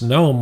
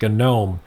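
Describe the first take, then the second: First: The word starts with an n sound. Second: The word starts with a hard g sound. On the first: The speaker calls it wrong. "as opposed to being pronounced GNOME with the silent G" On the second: The speaker calls it right. "it's pronounced GNOME"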